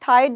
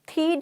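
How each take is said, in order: First: The vowel is an 'eye' diphthong. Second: The vowel is a long 'ee' sound. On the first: "थाइड नहीं बोल रही हूं" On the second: "थीड नहीं बोल रही"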